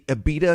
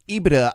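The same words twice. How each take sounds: First: It is said to sound like Ibiza. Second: It is said with its usual pronunciation. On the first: "it should be EBITDA because it sounds a little bit more sexy" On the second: "I know that's the way that you say it"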